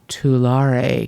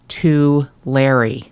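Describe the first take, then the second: First: The ending sounds like the ending of 'Volare'. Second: The ending does not sound like 'Volare'. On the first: It sounds classier. The speaker calls it wrong. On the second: It is what the locals call it. The speaker calls it right.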